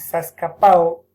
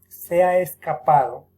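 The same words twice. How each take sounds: First: Se ha is shortened into one syllable. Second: Se ha is said fully as two syllables. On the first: The speaker calls it wrong. "Apócope" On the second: The speaker calls it right. "por decir"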